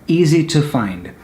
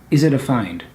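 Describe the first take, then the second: First: The word to is said fully, like two. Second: The word to is reduced to a quick da. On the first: "that's okay" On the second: "native speakers quite often they don't pronounce the two as a two"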